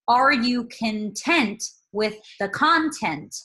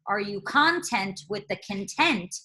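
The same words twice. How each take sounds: First: Each word carries stress on its expected syllable. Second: The stresses on the two words are swapped. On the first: The speaker calls it right. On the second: The speaker calls it wrong.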